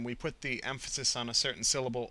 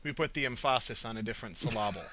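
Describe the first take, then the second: First: Emphasis stressed normally on EM; normal word stress. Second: "emphasis" stressed on the second syllable, em-PHA-sis; playful demo of em-PHA-sis with the wrong stress; shifted word stress. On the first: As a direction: say "emphasis" the usual way, EM-pha-sis. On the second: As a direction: move the stress in "emphasis" to PHA, with a full vowel. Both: Shown as a demonstration. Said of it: "as a simple demonstration of how our words are stressed".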